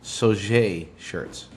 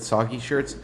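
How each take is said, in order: First: The first word has a soft 'j' sound. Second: The first word has a hard 'g' sound. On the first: The speaker calls it right. "It's actually Soje" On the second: The speaker calls it wrong. "Earlier, I said soggy shirts"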